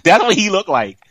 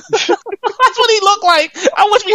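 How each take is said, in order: First: Said in the usual way. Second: High, slow, cracking up through it; laughing. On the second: Real, not acted. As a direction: drag it out while laughing hard. Repeats line laughing the second time.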